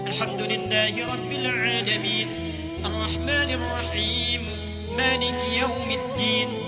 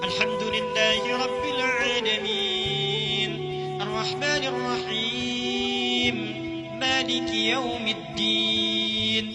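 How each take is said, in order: First: It is recited quickly with short held vowels. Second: It is recited at medium pace with longer vowels. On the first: "itu disebut dengan qiraah hadr, cepat" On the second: "Itu disebut dengan mutawassit, pertengahan"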